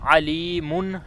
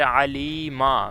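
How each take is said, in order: First: The word ends with an -un sound. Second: The word ends with an -a sound. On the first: "आखिरी हरूफ की असल हरकत अलीमुन है" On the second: "मीम के ऊपर ज़बर है"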